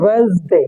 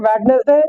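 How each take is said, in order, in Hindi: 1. इसे इसके सबसे छोटे, पूरी तरह घटे हुए रूप में बोला जाता है। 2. स्पेलिंग का हर अक्षर साफ़ बोला जाता है। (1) "होता है वेंसडे" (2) "बहुत से पढ़ते हैं वेडनेसडे"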